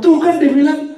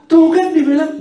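First: High, loud told-you-so scold; imitating a nagging mother, raised pitch; mock scolding parent. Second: High, loud taunting sing-song; playful mock taunt, high and loud; sing-song told-you-so. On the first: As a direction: nag like a fed-up parent. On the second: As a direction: chant it like a mocking nag. Parent scolding child.

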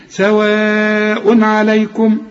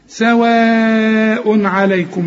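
First: Slow سواء عليكم, vowel held; مد متصل في سواء; long madd. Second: سواء drawn out very slowly; مد سواء أربع حركات; long madd. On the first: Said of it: "لازم تمد أربع حركات". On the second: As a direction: stretch the alif of سواء. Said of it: "مد لازم". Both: Shown as a demonstration.

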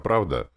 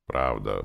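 First: Higher, louder earnest "правда?"; sincere question. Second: Low, curt "правда"; grumbled assent. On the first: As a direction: ask "правда?" hoping she agrees. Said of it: "проговорил я искренне". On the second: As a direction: grunt "правда" back grudgingly. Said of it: "буркнула Настя". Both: A narrator's reading.

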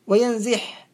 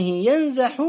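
First: وينزح said wa-yanziḥ; kasra form. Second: ينزح said yanzaḥu; fatha form. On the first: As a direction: put an i after the z in وينزح. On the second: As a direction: put an a after the z in ينزح. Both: Shown as a demonstration. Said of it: "بالفتح والكسر".

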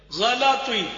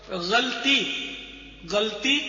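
First: "غلط ہوئی" as one word, ghalatwi, vowel after l; full-vowelled "غلط ہوئی", ghalatwi; correct pronunciation. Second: "غلطی" as ghalti then galti, two syllables; mispronounced "غلطی", ghal-ti; wrong pronunciation. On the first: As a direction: say "غلط ہوئی" loudly as gha-la-twi. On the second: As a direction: say "غلطی" with no vowel after l. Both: Shown as a demonstration. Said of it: "یہ بھی غلط ہے".

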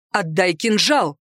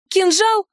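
First: Slow, measured order on отдай кинжал; stern, restrained male-character command. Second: Кинжал pitched high with a rising end; high, rising echo on Кинжал; defiant echo question. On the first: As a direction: give the order deliberately, кинжал falling. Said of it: "приказал он". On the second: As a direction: toss Кинжал back as a challenging question. Heroine echoes order defiantly. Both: A narrator's reading.

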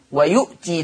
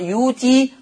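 First: "ويؤتي" with a glottal stop after short u; written hamza form. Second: "يوتي" with long oo, no glottal stop; hamza turned to waw. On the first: Teacher recapping the written word, hamza pronounced. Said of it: "ويؤتي تقرأ يوتي". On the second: Teacher recapping the Warsh reading, smooth long vowel. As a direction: lengthen the oo of "يوتي". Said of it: "تقرأ يوتي". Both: Shown as a demonstration.

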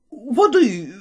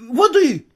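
First: Said in the usual way. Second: Second call for water, louder and higher; louder urgent repeat of воды. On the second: A narrator's reading. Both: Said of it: "кричал мой тёзка".

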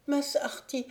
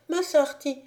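First: Put-on higher feverish child's voice, a falling call; delirious call. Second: Higher and louder, "Mas" pushed out; louder delirious call. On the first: Sick boy calls his master in delirium, falling call. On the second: Sick boy calls his master again, louder urgent cry. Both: A narrator's reading. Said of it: "Puis il continua".

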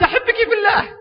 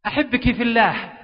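First: Much higher, blurted in a rush; a hammed-up shy groom forcing the words out; nervous blurt. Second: Said in the usual way. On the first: Shy groom finally blurting love to his bride, high and rushed. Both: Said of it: "يقول بسرعة قلت".

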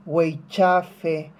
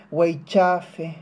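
The two takes are said the same way.

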